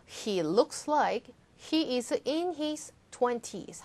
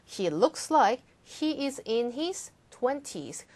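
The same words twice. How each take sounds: First: Slow, clear model sentence; slow model reading. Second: Slow, even model sentence; slow model reading. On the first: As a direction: read slowly, every word clear. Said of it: "다시 한번 읽어볼게요". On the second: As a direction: read slowly with a falling end. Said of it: "한 번 더". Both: Shown as a demonstration.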